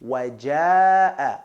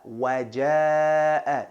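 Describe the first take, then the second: Both takes have the same delivery.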